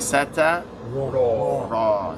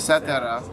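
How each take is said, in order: First: The final r-sound is said heavy and thick. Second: The final r-sound is said light and thin. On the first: The speaker calls it right. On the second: The speaker calls it wrong.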